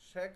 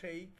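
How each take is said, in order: First: The name is said with a Bengali pronunciation. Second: The name is said with an English pronunciation. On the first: "শেখ আমরা বাংলাতে উচ্চারণ করি" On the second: "but ইংলিশে যখন উচ্চারণ করবেন তখন শেখ হাসিনা"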